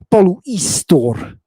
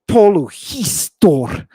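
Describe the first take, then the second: First: No h sound is heard before the middle vowel. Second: An h sound is heard before the middle vowel. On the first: The speaker calls it right. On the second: The speaker calls it wrong.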